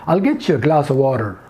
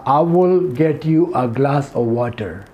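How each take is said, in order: First: It is said in an American accent. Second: It is said plainly, without an American accent.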